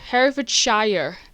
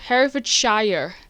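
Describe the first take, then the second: First: It is said in an American accent. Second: It is said in an American accent.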